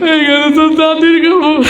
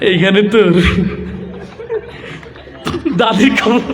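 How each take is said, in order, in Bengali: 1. এটা কান্নাভেজা গলায় বলা হচ্ছে। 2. এটা নরম ও দ্বিধাগ্রস্তভাবে বলা হচ্ছে। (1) "ইমোশনাল ছেলে আসছে। সে এসে আবৃত্তি করছে এইভাবে" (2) "লাজুক একটা যুবক আসছে, তার আবৃত্তির ঢং ছিল এরকম"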